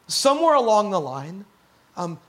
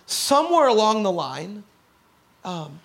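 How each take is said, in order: Both takes have the same delivery.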